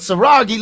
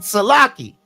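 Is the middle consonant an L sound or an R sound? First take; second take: R; L. First: The middle consonant is an R sound. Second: The middle consonant is an L sound. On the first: This is the lower dialect form. "lower dialect" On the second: This is the upper dialect form. "upper dialect"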